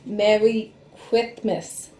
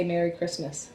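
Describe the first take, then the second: First: Slow, with tongue out; tongue sticking out. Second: Said in the usual way. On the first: Shown as a demonstration. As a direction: say it with your tongue stuck out. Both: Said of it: "if you stuck your tongue out and try to say".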